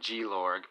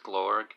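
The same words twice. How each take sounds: First: The name is said as two syllables. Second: The name is said as one syllable. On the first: This is a personal nickname for the character. "I like to call him G-Lorg" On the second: This is the character's real name. "I know his name's Glorg"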